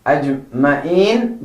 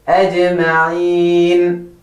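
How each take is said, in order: First: "Ajma'in" short, with no throat sound before "een"; wrong-way "Ajma'in", throat consonant dropped; Ajma'in mispronounced. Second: "Ajma'in" slow, clear ayn and long held "een"; chant-like model "Ajma'in", last vowel held level; clear throat A. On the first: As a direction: say "Ajma'in" with a plain vowel for the ayn. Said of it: "So don't say". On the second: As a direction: stretch "Ajma'in", voicing the throat sound clearly. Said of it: "the A should be nice and clear". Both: Shown as a demonstration.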